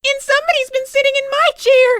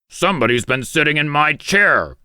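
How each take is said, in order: First: It is a squeaky, shrill little voice. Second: It is a growled, deep, big voice.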